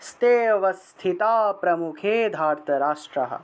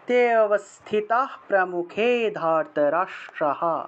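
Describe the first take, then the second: First: The phrase starts with "ste", with an s sound. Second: The phrase starts with plain "te", no s sound. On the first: "অথবা স্তেও বলতে পারেন" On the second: "হসন্ত যুক্ত দন্তস্বটা আসলে বিসর্গ হয়ে যায় এবং বিসর্গ হয়ে উচ্চারণটা হয়ের মতো হবে"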